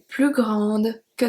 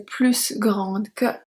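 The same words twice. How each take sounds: First: The S at the end of plus is silent. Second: The S at the end of plus is pronounced. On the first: The speaker calls it right. "Because the adjective starts with a consonant" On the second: The speaker calls it wrong. "Why we don't say plus grande que?"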